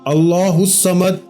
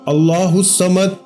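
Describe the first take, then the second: No difference in how they are said.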